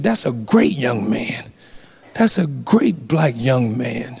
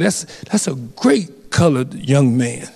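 First: A lightly voiced old man, slow and lower, a little softer; mild imitation of an old man's praise, slowed down; old officer quote. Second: Lightly voiced old man, slow, saying "colored"; a hint of an old-timer's slow praise; old man quote. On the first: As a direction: ease into a hint of an elderly retired cop, slow and low. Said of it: "and he said". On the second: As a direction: gently imitate the elderly officer, slow and measured. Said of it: "He said".

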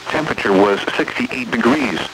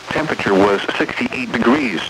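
The two takes are said the same way.

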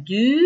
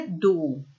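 First: «ντου» with a rounded front u, like French u; right Norwegian u. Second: «ντου» with the plain Greek back ou, said lower and softer; wrong Greek ou. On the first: Teacher showing Greek learners the right Norwegian vowel. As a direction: say «ντου» with lips rounded and tongue forward. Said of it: "Λέμε". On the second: Teacher showing learners the mistake to avoid. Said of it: "μη το πείτε". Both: Shown as a demonstration.

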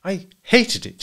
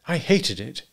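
First: High, emphatic bitterness; bitter. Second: Higher, understated rejection; restrained dislike. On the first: Wife repeats herself when asked why, bitterly. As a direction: throw it back bitterly. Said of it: "she said bitterly". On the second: Wife answers husband's delight, restrained dislike. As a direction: say it with contained distaste. Wife's first, quieter reply. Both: A narrator's reading.

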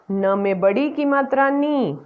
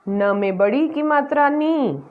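The two takes are said the same way.

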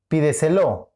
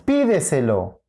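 First: "pídeselo" wrongly stressed as pi-de-se-LO; stress on last syllable. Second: "Pídeselo" stressed as PI-de-se-lo; stress on first syllable. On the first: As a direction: hit the final LO of "pídeselo". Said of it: "¿Cuál es?". («pídeselo» con acento en la última: pi-de-se-LÓ) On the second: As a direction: hit the PI of "Pídeselo". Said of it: "Es pídeselo". («Pídeselo» con acento en la primera: PÍ-de-se-lo) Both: Shown as a demonstration.

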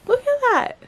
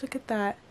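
First: Much higher and louder delighted cry; real thrilled exclamation; excited squeal. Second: Said in the usual way. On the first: Real, not acted. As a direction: burst out in real wonder. Same words said twice.

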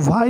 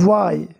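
First: "why" with the h wrongly sounded. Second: "Why" with a silent h, starting on a v-like w; correct "why". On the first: Teacher showing how not to read it, h-sounded "why". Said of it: "why नहीं पढ़ेंगे". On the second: Teacher modelling the right reading, h-less "Why". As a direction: leave the h out of "Why". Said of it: "इसको". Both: Shown as a demonstration.

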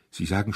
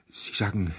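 First: Second halting try with a rise; stutter, tailing up; stammered again. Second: Halting, broken repeat; stammered. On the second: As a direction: stumble over the words. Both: A narrator's reading. Trembling owner stammering at the duke. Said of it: "stotterte er".

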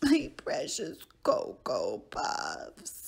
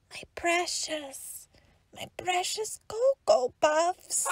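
First: Low dramatic sobbing wail; hammed-up grief over cereal; crying wail. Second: Anguished whisper. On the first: Lost count, mourns cereal. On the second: Acted. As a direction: breathe it out in despair. Mourns lost cereal again.

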